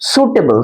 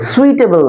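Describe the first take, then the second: First: The first syllable sounds like 'soo'. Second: The first syllable sounds like 'swee'. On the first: The speaker calls it right. "এটা উচ্চারণটা কি? সুটেবল" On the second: The speaker calls it wrong. "সুইটেবল নয় কিন্তু"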